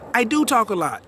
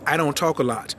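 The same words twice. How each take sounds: First: "do" punched high, then falling; stress on DO. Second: Said in the usual way. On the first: Real, not acted. Host owning being a big talker, stress on "do". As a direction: hit the word "do" in a higher-pitched correction. Emphatic correction of don't talk.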